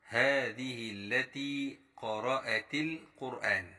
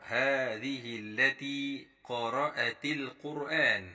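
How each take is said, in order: No difference in how they are said.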